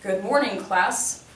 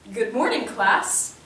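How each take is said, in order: First: It is said grudgingly, in a flat, unhappy tone. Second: It is said with cheerful, excited enthusiasm. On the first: The speaker is in a bad mood and speaks out of obligation. "I'm not in a good mood and that there's a level of obligation" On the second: The speaker is happy and excited for the day. "the enthusiasm in my voice that I'm in a good mood and I'm excited for the day"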